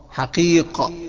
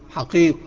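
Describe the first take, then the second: First: The q sound ends with a clear bounce. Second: The q sound is swallowed without a bounce. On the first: The speaker calls it right. "لو جات لك ساكنة لازم تقلقلها" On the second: The speaker calls it wrong. "ما تقولش حقيق"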